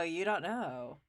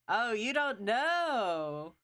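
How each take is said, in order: First: Said in the usual way. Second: Slow drawn-out teasing. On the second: Shown as a demonstration. Teasing the player who doesn't know, drawn out slowly. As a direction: drag out you don't know teasingly.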